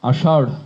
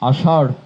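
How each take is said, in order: The two takes are said the same way.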